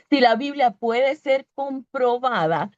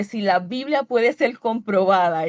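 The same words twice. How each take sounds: First: Slow, deliberate "si la Biblia puede ser comprobada"; emphatic restatement. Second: Said in the usual way. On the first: Real, not acted. Preacher restating the point once the word is found, slow and emphatic.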